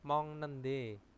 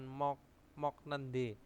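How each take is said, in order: First: The first syllable ends in an ng sound. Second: The first syllable ends in a k sound. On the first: The speaker calls it right. "Bacanya mong nende ya" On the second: The speaker calls it wrong. "bukan mok mok nende"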